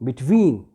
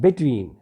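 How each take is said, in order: First: The stress is on the second syllable. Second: The stress is on the first syllable. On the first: The speaker calls it right. "the stress will be on the second syllable" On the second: The speaker calls it wrong. "not between"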